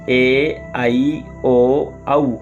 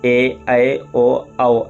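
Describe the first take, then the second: First: The vowels are pronounced in the Sanskrit way. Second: The vowels are pronounced in the Hindi way. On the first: "Sanskrit में ए ऐ ओ औ ऐसा बोलते हैं" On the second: "Hindi व्यंजन वर्णमाला में ए ऐ ओ औ ऐसा पढ़ते हैं"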